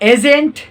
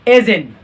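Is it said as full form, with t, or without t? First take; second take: with t; without t. First: It is contracted with the final t pronounced. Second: It is contracted with the final t dropped. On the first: This is how non-native speakers say it. "दूसरे पर हमारे पास आता है एजेंट" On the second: This is how native speakers say it. "तीसरा पर हमारे पास आता है एजिन"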